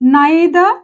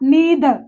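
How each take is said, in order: First: The first vowel sounds like 'eye'. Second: The first vowel sounds like 'ee'. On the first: "దీన్ని రెండు రకాలుగా pronounce చేయొచ్చు మనం" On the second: "నేను నీదర్ అంటున్నా"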